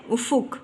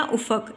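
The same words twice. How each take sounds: First: "افق" as ufuq, u in both syllables; correct pronunciation. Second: "افق" as ufaq, with a in the second syllable; wrong pronunciation. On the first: Teacher gives students the correct reading, "افق" said as ufuq. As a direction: say "افق" with pesh on the fe: u-fuq. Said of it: "فے کے اوپر پیش". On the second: Teacher shows students the faulty reading, "افق" said as ufaq. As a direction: say "افق" with zabar on the fe: u-faq. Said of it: "یہ غلط تلفظ ہے". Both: Shown as a demonstration.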